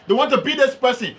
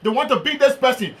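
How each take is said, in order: Both takes have the same delivery.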